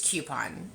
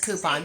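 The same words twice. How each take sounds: First: The word begins with a 'kyoo' sound. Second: The word begins with a 'koo' sound. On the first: "I'm a Q. I think it's coupon" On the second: "Alicia always says coupon"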